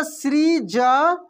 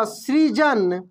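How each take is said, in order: First: सृजन stretched very slowly, the sri held; drawn-out spelling-out. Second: Said in the usual way. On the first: Shown as a demonstration. Teacher to pupils, drawing the word out slowly. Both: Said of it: "क्या हो जाएगा?".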